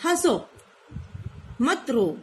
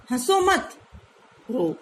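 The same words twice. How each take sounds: First: हंसो, pause, मत रो; pause after हंसो. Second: हंसो मत run together, pause, then रो; pause after मत. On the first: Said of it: "अब इसने बोला "हंसो", फिर रुक गई". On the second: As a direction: break after मत, not after हंसो. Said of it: "ये यहाँ रुकी". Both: Shown as a demonstration.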